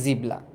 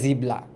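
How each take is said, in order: First: The middle is a b followed by l. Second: The middle is a b followed by l.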